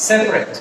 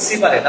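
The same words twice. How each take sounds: First: "সেপারেট" as two syllables, sep-ret; dropped vowel. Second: "সেপারেট" in three syllables, si-pa-ret; common mispronunciation. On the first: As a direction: drop the middle "a" of "সেপারেট". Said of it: "আমরা এটাকে drop করে দিলে". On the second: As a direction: sound the middle "a" in "সেপারেট". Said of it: "আসলে এটা সেপারেট না". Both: Shown as a demonstration.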